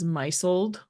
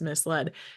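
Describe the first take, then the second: First: It is said like 'MY-zld', stressed at the start. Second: It is said 'mis-LED', stressed on the end. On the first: This is how it sounded when only read, never heard. The speaker calls it wrong. "I used to read as misled" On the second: This is how the word is actually spoken. The speaker calls it right. "oh, that that word is misled"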